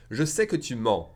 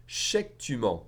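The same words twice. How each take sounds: First: Said in the usual way. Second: "Je sais que" contracted to "shayk"; combined J and S. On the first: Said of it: "If I say it faster". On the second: Shown as a demonstration. Teacher showing faster French, "Je sais que" reduced to chék. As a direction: merge "Je sais" into ché and clip "que" to k. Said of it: "the S and the J together".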